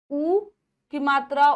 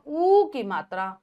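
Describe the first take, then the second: First: ऊ said short, a quick u; short vowel ऊ. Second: ऊ stretched long and slow; long vowel ऊ. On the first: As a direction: clip the ऊ short as a short u. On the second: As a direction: draw out ऊ as a long oo. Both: Shown as a demonstration.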